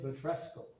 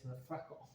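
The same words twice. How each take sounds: First: The S sound is clearly pronounced. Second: The S sound is dropped. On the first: "No es refresco" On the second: "they don't say the S's"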